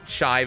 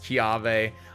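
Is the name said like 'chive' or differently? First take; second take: chive; different. First: The name sounds like the word 'chive'. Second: The name does not sound like 'chive'. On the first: The speaker calls it wrong. "I keep getting told it's not Chive" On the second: The speaker calls it right. "it's Chiave"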